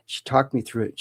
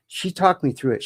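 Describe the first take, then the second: First: Said in the usual way. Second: "talked" lifted high and held; emphatic. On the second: Real, not acted. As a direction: stress on talked, pitched up.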